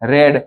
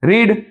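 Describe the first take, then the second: First: The vowel is short, like 'red'. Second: The vowel is long, like 'reed'. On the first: It is the past tense. "જો રીડ ને રેડ બોલાય રેડ, પણ spelling સરખો જ છે" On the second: It is the present tense. "અહીંયા રીડ લખ્યું છે"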